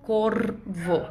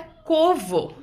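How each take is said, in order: First: "corvo" with the r clearly sounded; careful, lower "corvo" with its r drawn out; r sounded calmly. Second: "covo" with no r sound; slow "covo" missing its r; r left out. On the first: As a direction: say "corvo" unhurried, letting the r vibrate before the v. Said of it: "falando com mais calma". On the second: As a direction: say "covo", dropping the r before the v. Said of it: "falta um sonzinho ali". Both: Shown as a demonstration.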